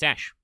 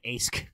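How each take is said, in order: First: The name ends with an sh sound. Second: The name ends with a k sound. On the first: The speaker calls it right. "It should absolutely be be ash" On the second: The speaker calls it wrong. "did s- pronounce it Ask"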